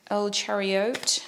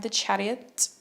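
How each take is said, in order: First: Slow, badly faked Spanish accent; hammy, unconvincing Spanish accent; terrible Spanish accent. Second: Said in the usual way. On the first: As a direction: stretch it in a joke Spanish accent. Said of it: "It's a terrible Spanish accent". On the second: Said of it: "That's the worst accent".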